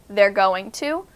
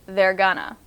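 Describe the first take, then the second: First: Going to is said in full. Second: Going to is reduced to gonna. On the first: "This is with they're going to" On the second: "we'll change it to they're gonna"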